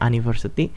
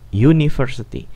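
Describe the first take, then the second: First: The first letter sounds like a plain 'a' vowel. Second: The first letter sounds like 'yu' with a y. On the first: The speaker calls it wrong. "kita nggak pernah mengucapkannya university" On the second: The speaker calls it right. "tapi dibaca sebagai U"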